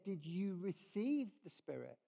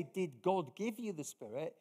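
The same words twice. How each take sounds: First: "receive" leaned on, with a falling finish; stress on receive. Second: "God" hit as the key word, with a rising question; weight goes on "God", not on the listeners; stress on God. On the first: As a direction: put the weight on "receive". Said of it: "it's about them receiving". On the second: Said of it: "He doesn't say". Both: Shown as a demonstration.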